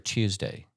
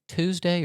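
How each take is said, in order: First: It begins with a 'choo' sound. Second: It begins with a plain 'too' sound. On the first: "Two or chew?" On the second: "Two or chew?"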